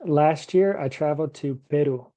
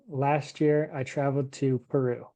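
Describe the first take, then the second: First: Peru with an English R and P; English pronunciation. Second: Peru with a Spanish tapped R, no puff on the P; Spanish pronunciation. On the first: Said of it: "could I say". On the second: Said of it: "Or would I say". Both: Shown as a demonstration.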